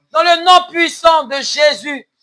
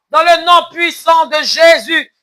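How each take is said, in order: No difference in how they are said.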